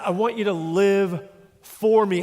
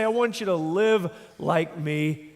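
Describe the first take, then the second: First: Slow, "for" pressed and falling; "live for me" said slowly, weight on for; stress on for. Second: Slow, leaning on "like me"; "live like me" said slowly, weight on like; stress on like. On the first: Preacher contrasting like with for, stressing for. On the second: Preacher contrasting like with for, stressing like. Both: Shown as a demonstration. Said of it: "the difference between like him and for him".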